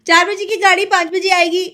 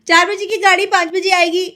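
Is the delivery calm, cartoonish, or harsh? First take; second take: harsh; harsh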